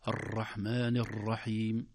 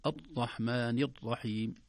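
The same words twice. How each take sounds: First: الرحمن الرحيم with the ر rolled long and overstressed, said slowly; overdone trilled r. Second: الرحمن الرحيم with the ر pressed hard like a d, said slowly; hardened r. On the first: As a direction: roll the ر in الرحمن الرحيم far too much, slowly. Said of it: "يا إما مبالغة فيه". (الرحمن الرحيم بترقيق وتكرار مبالغ فيه للراء) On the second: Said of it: "يشد عليه". (الرحمن الرحيم بشدّ الراء حتى تقارب الدال) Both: Shown as a demonstration.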